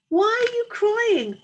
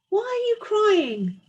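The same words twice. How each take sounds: First: High, slow question echoed; echoing beaver voice. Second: High, slow, loud question; childlike beaver voice. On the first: The echo repeating Little Beaver's question, high and slow. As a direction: echo it back just the same. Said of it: "asked the voice from across the pond". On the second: Little Beaver asking the voice across the pond, high and slow. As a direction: ask gently like a small child. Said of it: "asked Little Beaver". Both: A narrator's reading.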